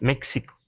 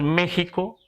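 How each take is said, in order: First: The middle consonant is a ks sound. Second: The middle consonant is a throaty h sound. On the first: This is how English speakers say it. "Es que porque pronuncian la X" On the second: This is the usual Spanish way of saying it. "hoy decimos México, ... está castellanizado decir México"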